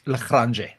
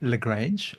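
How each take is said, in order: First: The name is said with an Afrikaans pronunciation. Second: The name is said with an English pronunciation. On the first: "if you're in Afrikaans" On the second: "if you're in English"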